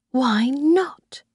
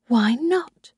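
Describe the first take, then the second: First: Whispered to herself. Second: Said in the usual way. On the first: A narrator's reading. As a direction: breathe the question without voice. Narrator's inner question.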